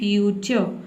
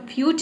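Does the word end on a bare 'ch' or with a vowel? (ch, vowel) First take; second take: vowel; ch. First: The word ends with a vowel after ch. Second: The word ends abruptly on the ch sound. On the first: The speaker calls it right. "अ का sound आपको बोलना है" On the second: The speaker calls it wrong. "फ्यूच नहीं बोल देना है"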